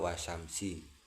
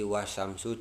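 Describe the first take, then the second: First: The word ends with an i vowel. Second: The word ends with an u vowel. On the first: The speaker calls it wrong. "dibaca wasamsi" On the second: The speaker calls it right. "yang merubah harokat"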